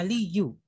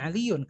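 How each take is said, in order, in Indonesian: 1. Kata ini berakhir dengan vokal, tanpa n. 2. Kata ini berakhir dengan tambahan bunyi n. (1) "Harusnya bacanya ada aliyu" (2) "bukan aliyun"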